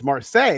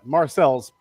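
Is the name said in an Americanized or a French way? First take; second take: French; Americanized. First: The name is said the French way. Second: The name is said in an Americanized way. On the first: This is the original city's name. "of course it's Marseille" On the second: This is what the locals call the town. "That's what everybody calls it"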